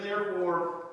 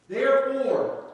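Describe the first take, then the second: First: Said in the usual way. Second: "Therefore" hit loud, high and falling; stress on therefore. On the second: Shown as a demonstration. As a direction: punch "Therefore" as the key word. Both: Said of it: "I have a habit".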